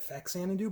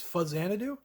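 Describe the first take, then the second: First: The first syllable sounds like 'fax'. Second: The first syllable sounds like 'fuzz'. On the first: The speaker calls it wrong. "I know a lot of people say it Faxanadu" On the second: The speaker calls it right. "I believe the actual pronunciation of this is Fuzzanadu"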